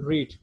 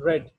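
First: The vowel is long, like in 'reed'. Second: The vowel is short, like in 'red'. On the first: The action happens in the present. The speaker calls it wrong. "It is not read" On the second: The action happened in the past. The speaker calls it right. "when you pronounce past form of read, then you have to pronounce it read"

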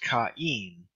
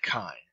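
First: The two vowels are said as separate sounds. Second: The two vowels merge into one gliding sound. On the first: The speaker calls it right. "pronounced kain" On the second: The speaker calls it wrong. "and not kein"

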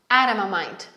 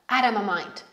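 First: The t is a quick flap like an r. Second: The t is a quick flap like an r.

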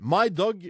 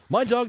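First: It is said in the speaker's plain accent. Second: It is said in an attempted Cockney accent.

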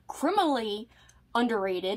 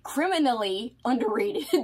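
First: The phrase is said in an awkward, odd way. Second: The phrase is said in a smooth, natural way. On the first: The speaker calls it wrong. "I said that weird" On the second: The speaker calls it right. "That's how you say it correctly"

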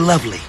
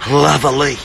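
First: The word is said with two syllables. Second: The word is drawn out into three syllables. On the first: The speaker calls it wrong. "Not lovely" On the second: The speaker calls it right. "Three syllables"

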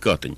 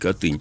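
First: It is pronounced the way Smolensk locals say it. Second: It is pronounced differently from the Smolensk way. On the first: This is how people in Smolensk say it. "в Смоленске говорят Катынь" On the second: This is how it is said outside Smolensk. "а не Катынь"

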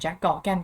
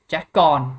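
First: The surname is said as two syllables. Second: The surname is said as one short syllable. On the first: "หรือจะออกเสียงเป็นแจ็คกอร์แกนก็ได้นะ" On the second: "อย่างแจ็คกอนนะครับ"

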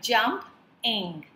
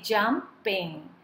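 First: The word is split into two separate syllables. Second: The word is said smoothly as one unit. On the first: "here we are dividing the word into two as we pronounce the word, like" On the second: "We say jumping"

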